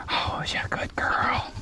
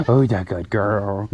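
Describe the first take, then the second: First: Tender whispered pet talk; whispering. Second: Said in the usual way. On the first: Real, not acted. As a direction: whisper it softly to her. Cooing to a goat.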